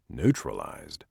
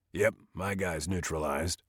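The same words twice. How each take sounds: First: Neutralized? repeated low and uneasy to oneself; worried echo. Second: Said in the usual way. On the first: Acted. Jake echoes Evan's word, wondering if it means dead. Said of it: "Does neutralized mean dead?".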